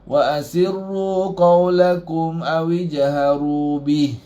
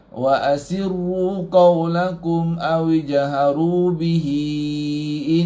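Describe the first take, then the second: First: The last word stops short on the final consonant. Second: The last word ends in a lengthened vowel, running on. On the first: The reader stops at this point. "Tapi kalau waqaf" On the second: The reading continues without stopping. "kalau kita baca terus dia akan jadi panjang"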